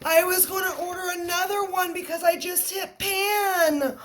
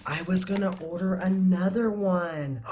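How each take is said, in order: First: Much higher, almost crying with happiness; high teary excitement; overjoyed, near tears. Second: Said in the usual way. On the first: Real, not acted. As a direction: squeal it through happy tears. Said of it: "I'm legit about to cry".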